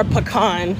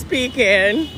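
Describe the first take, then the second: First: "pecan" as puh-KAHN, stress on the second syllable; pecan said her way. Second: "pecan" drawn out slowly as PEE-kin; mock pecan. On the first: Correcting a viewer's spelling, says pecan puh-KAHN. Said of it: "what is P C A N?". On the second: Teasing viewers who spell it out, slow PEE-kin pecan. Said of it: "You can't just spell it out, it's pecan". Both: Shown as a demonstration.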